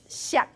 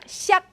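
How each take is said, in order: First: The syllable is said with a lower tone. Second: The syllable is said with a higher tone. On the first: The syllable stands alone or at the end of the phrase. "when it's by itself, it's xiak ... it started as a lower" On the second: The syllable is not at the end of the phrase. "when it's in a non-final position ... the lower tone changes to a higher tone"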